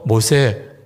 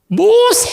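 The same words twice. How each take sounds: First: The name is said gently, as a polite plea. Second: The name is shouted in an angry, threatening tone.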